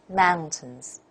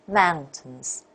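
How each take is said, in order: Both takes have the same delivery.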